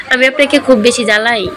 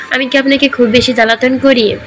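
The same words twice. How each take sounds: First: Understated, tear-choked question; tearful. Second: Mildly wounded, sulky question; hurt, sulky. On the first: Megh swallows and asks Abir again, mildly tearful. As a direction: ask with a touch of held-back tears. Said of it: "ঢোক গিলে ভেজা কণ্ঠে বলল". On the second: Megh asks Abir if she bothers him, sulky. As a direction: ask with a touch of hurt pride. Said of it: "অভিমানী কণ্ঠে বলল". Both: A narrator's reading.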